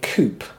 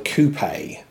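First: The word is said like 'coop'. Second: The word is not said like 'coop'. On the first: This is how Americans say it. "Americans pronounce that word coupe. Like a chicken coop" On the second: This is how the speaker's own country says it. "one of them we call a coupe"

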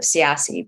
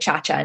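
First: The surname is pronounced the American way. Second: The surname is pronounced the Italian way. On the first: This is how the family said the name growing up. "growing up, we pronounce it as Siasi" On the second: This is how people in Italy say the name. "I'm trying to get used to saying Chacha now"

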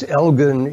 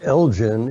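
First: The name is pronounced the Scottish way. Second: The name is pronounced the American way. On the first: "it's Elgin if you go to Scotland" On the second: "it's Elgin in the United States"

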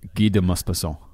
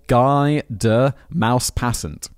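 First: The name is said with a French accent. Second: The name is said with a plain English accent. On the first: "In French, I'd be like" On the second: "I see in bold"

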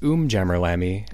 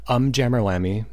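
First: The first syllable sounds like 'oom' as in umlaut. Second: The first syllable sounds like the hesitation 'um'. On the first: It evokes hard rock band names. "like umlaut" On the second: It evokes a nervous, hesitant person. "the kind of like the vocal filler that people would use when they're nervous"

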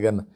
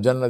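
First: The word begins with a hard g sound. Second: The word begins with a j sound. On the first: "they say ganna" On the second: "instead of jannah"

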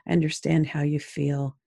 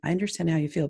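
First: It sounds warm and sincere. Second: It sounds quick and dismissive.

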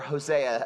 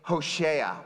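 First: The name is said in the usual English way. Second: The name is said in a Hebrew-like way. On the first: This is the form English speakers use. "as we say" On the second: This is the name's original form. "originally named Hosea"

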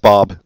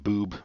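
First: The vowel is an open 'ah' sound. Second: The vowel is a long 'oo' sound. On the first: The speaker calls it right. "That's how you pronounce it" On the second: The speaker calls it wrong. "I used to pronounce it Boob, but he corrected me"

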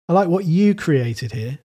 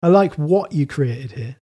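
First: The stress is on "created". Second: The stress is on "what".

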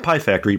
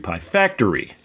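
First: The stress is on the first word. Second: The stress is on the second word. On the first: The speaker calls it wrong. "not Pie Factory" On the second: The speaker calls it right. "emphasizing the second word"

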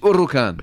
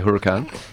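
First: The first H is silent. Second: The first H is sounded. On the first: This is the Italian way of saying it. "It's a silent H" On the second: This is how people here usually say it. "But we would say Huracan"

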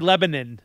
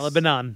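First: The name is said with a reduced ending. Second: The name is said with every syllable full. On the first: This is how locals say the name. The speaker calls it right. "it has to be Lebanon" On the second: This is how outsiders read the name. The speaker calls it wrong. "not Lebanon"

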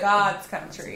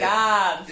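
First: The vowel in God is short. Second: The vowel in God is drawn out. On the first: The speaker calls it wrong. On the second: The speaker calls it right.

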